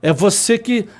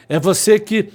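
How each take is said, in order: Both takes have the same delivery.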